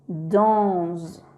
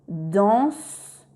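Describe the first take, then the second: First: The consonant after the N is a buzzing Z. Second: The consonant after the N is a hissing S. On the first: The speaker calls it wrong. "et non danse" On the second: The speaker calls it right. "S ne va pas faire le son Z, mais le son S. On va lire danse"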